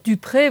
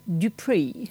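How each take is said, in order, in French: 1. Le nom se prononce à la française. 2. Le nom se prononce à l'anglaise. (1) "c'est un nom parfaitement français" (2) "qu'on prononce par contre Dupré"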